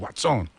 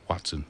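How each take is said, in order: First: It is said in a cool street accent. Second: It is said in a plain, standard way.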